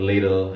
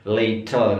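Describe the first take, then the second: First: The middle t is a flapped d-like sound. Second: The middle t is a crisp t. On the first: "kalau American" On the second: "kalau British"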